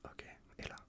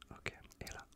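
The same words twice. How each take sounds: The two takes are said the same way.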